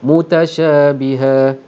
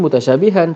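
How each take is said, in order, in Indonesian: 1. Kata ini diakhiri dengan bunyi a panjang. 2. Kata ini diakhiri dengan bunyi n. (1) "maka akan kita berhenti dengan bunyi alif" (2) "Sepatutnya mutasyabihan"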